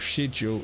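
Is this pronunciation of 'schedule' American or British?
British. It is said with a British pronunciation. "more a classic British"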